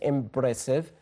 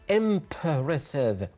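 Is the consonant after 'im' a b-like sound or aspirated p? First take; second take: b-like; aspirated p. First: The p sounds like b, with no air. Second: The p is released with a puff of air. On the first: The speaker calls it wrong. "We don't say impressive. It's not uh, correct" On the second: The speaker calls it right. "There is an air comes out of a mouth"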